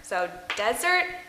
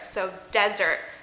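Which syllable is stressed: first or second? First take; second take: first; first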